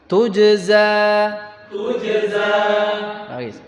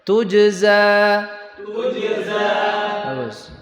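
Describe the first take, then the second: No difference in how they are said.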